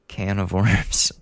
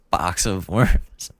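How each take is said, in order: First: Said in the usual way. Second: Slow, chuckling "Box of worms"; amused drawn-out "Box of worms"; laughing at own slip. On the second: Shown as a demonstration. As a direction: savour the mixed-up idiom "Box of worms" with a laugh.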